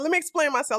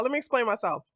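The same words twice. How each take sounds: First: Said in the usual way. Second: Whispered under the breath. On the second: Real, not acted. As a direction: repeat it as a hush. Repeated in whisper.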